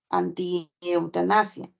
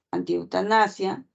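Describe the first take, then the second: First: "anti-eutanasia" said slowly with a rising end; slow demo word. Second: Said in the usual way. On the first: Shown as a demonstration. (pronunciar "anti-eutanasia" despacio, con tono que sube) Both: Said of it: "Por ejemplo, en la palabra".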